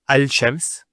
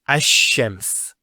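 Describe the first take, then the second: First: A clear L is said before the sh. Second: The L merges into a doubled sh sound. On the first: The speaker calls it wrong. "not al-shams. ... it's not smooth" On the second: The speaker calls it right. "So it's ash-shams"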